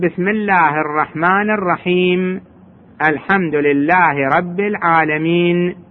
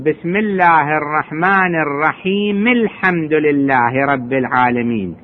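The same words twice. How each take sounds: First: It stops after each verse with no final vowel. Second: The verses run together with a linking vowel. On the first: The reciter pauses at the end of each verse. "أما إذا وقف يقول ... سكون" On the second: The verses are recited continuously without stopping. "هذا إذا درجها"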